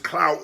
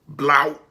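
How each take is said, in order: First: The word begins with a k sound. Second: The word begins with a b sound. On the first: "if the word is clout" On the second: "not pronouncing the word B, I mean C in a word"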